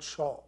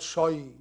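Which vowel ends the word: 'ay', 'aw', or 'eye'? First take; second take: aw; eye. First: The word ends in a rounded 'aw' vowel. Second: The word ends in an 'eye' vowel. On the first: "not shaw" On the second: "Not shy"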